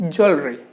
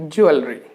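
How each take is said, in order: No difference in how they are said.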